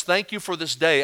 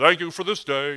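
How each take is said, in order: First: Said in the usual way. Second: Mock automatic thanks; unthinking rote prayer. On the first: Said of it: "if you took the sentence". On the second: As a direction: rattle off a habitual prayer without thinking. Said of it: "like we're not even thinking about it".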